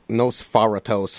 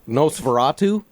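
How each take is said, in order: First: The word ends with an 'ohs' sound. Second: The word ends with an 'oo' sound. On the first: The speaker calls it wrong. "Said it wrong" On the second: The speaker calls it right. "I said that right, right?"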